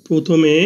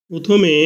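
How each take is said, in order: Both takes have the same delivery.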